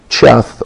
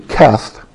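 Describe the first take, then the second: First: The word begins with a soft 'ch' sound. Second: The word begins with a hard 'k' sound. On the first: The speaker calls it wrong. "Look at verse 57 at Cheth" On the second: The speaker calls it right. "or actually Keth ... it's a hard K sound"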